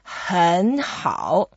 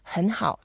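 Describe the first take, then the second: First: Both syllables carry a full, effortful third tone. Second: The first syllable sounds softened, like a second tone. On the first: "you need to make real effort" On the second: "you make the first one slightly mild. So it will sound slightly like a second tone"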